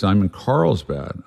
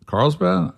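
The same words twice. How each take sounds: First: Said in the usual way. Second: Carlsbad thrown up high in disbelief; like you can't believe how far away that is; incredulous Carlsbad. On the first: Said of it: "And he goes". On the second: Hearing his friend is hours away, incredulous. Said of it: "I'm like".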